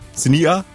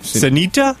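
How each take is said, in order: First: The t sound in the middle is dropped. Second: The t sound in the middle is clearly pronounced. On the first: The speaker calls it right. "There you go" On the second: The speaker calls it wrong. "No, but don't with the T"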